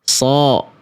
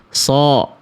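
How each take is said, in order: Both takes have the same delivery.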